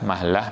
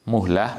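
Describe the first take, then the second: First: The vowel after the m is a. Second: The vowel after the m is u. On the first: "atau mahlah bisa" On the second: "bidhammil mim"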